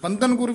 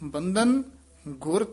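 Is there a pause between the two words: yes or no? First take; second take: no; yes. First: The two words run together without a pause. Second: A short pause falls between the two words. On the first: The speaker calls it wrong. "बंधन गुर भी नहीं कहना" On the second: The speaker calls it right. "बंधन इथे भी ठहरा दे देना"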